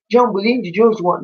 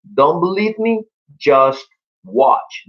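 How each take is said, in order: First: "Don't believe me, just watch" sung with sloppy, slurred English, "just" swallowed to "us"; mangled lyric. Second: "Don't believe me, just watch" sung clearly, every word shaped, "just" in full; correct lyric. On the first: Teacher mocking students who sing "Don't believe me, just watch" without reading the lyrics, words blurred. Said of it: "escucho mucha gente que dice". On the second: Teacher showing students the correct lyric, "Don't believe me, just watch" sung clearly. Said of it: "busquen la letra y dice". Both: Shown as a demonstration.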